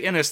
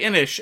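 First: The word ends with an 's' sound. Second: The word ends with an 'sh' sound. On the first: This follows how the name is spelt. "it's spelt Innis ... if you say Innis" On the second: This is how most people say the name. "People say Innish"

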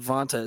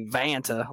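First: It is said with a Spanish-style accent. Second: It is said with a Southern US accent. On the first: The speaker calls it right. "you say Vanta. It sounds really nice" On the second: The speaker calls it wrong. "like I just crawled out from under a rock"

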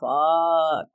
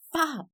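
First: It is said in an annoyed way. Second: It is said in an angry way.

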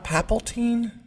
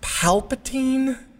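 First: The L sound comes in the second syllable. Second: The L sound comes in the first syllable. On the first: The speaker calls it wrong. "you're taking the L and putting it two letters later" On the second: The speaker calls it right. "Isn't it pronounced Palpatine?"

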